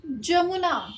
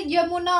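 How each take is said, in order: First: जमुना said with a j sound at the start; mistaken pronunciation. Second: यमुना said with a clear y sound at the start; correct pronunciation. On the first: Teacher showing students the common error, said with a j. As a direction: demonstrate the wrong जमुना with j. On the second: Teacher giving students the right form, with a y. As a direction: say यमुना with y, not j. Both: Shown as a demonstration. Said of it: "जमुना नहीं होता".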